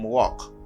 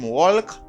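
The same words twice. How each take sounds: First: The L sound is silent. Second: The L sound is pronounced. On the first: The speaker calls it right. "dim walk" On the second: The speaker calls it wrong. "pas dim walk"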